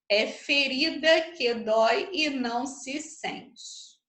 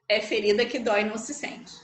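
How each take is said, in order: First: The line is spoken at a slower pace. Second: The line is spoken at a fast pace.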